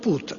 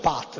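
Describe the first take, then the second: First: The vowel is a rounded 'oo' sound. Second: The vowel is an open 'ah' sound. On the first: The speaker calls it right. "si pronuncia proprio put" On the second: The speaker calls it wrong. "non si pronuncia pat"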